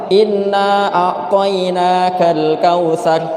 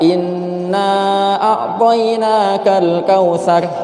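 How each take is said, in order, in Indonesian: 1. Vokal inna dibaca singkat. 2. Vokal inna dibaca agak panjang. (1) "innanya pendek cuma dua harokat" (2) "Ada juga yang bacanya empat harokat"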